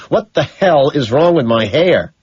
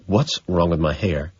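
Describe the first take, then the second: First: Louder, slower, higher angry demand; slow, loud demand about hair; rising rage. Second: Said in the usual way. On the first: Acted. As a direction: push it out with building fury. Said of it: "my rage quadruples". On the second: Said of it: "but now I'm panicked".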